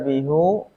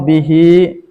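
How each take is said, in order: First: The word ends with a u vowel. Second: The word ends with an i vowel. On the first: The speaker calls it wrong. "tidak dibaca bihu" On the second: The speaker calls it right. "Contoh bihi dan alaihi"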